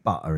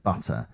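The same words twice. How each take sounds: First: The word is said in a Cockney accent. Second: The word is said in a standard accent. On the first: "Cockney saying butter" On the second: "instead of butter"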